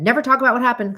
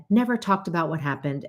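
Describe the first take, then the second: First: A family laying down its rule, voiced higher and louder; quoting the family rule. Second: Said in the usual way. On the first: The family rule said raised and firm. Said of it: "a family that never talked about what happened".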